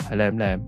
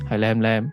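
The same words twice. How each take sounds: The two takes are said the same way.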